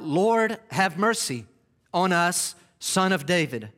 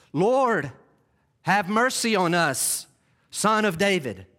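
First: Raised voice pleading for mercy; crying out. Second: Louder, pleading cry. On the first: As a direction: call out to the passing Lord, pleading. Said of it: "They cried out". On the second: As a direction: cry out with another gear. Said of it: "They kick it up a notch". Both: Acted.

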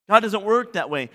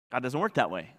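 First: Said in the usual way. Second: Quiet. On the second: Acted. Preacher repeats the point.

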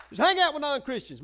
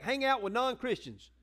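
First: "Just hang out with non-Christians" thrown out louder and higher; emphatic louder restatement; louder repeat. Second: Said in the usual way. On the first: Shown as a demonstration. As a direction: hit the repeat harder.

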